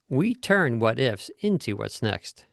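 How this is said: The word into is given strong emphasis.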